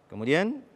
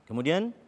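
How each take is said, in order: Both takes have the same delivery.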